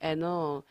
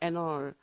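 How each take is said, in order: First: The d fades and n links into all. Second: The same.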